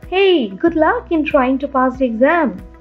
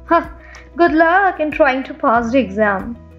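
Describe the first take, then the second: First: It is said in a casual tone. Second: It is said in a sarcastic tone.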